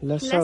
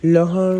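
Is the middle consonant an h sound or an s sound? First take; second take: s sound; h sound. First: The middle consonant is an s sound. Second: The middle consonant is an h sound. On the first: This is the city way of saying it. The speaker calls it right. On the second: This is the local village way of saying it. The speaker calls it wrong. "લહણ નહીં"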